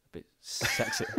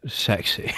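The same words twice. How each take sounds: First: Close-mic sultry murmur; leaning into the mic. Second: Whispered close-mic imitation; breathy whisper mocking it; mock sexy voice. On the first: Real, not acted. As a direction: lean in close and purr it. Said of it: "Why did you lean into the mic to say that?". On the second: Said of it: "It's just wrong".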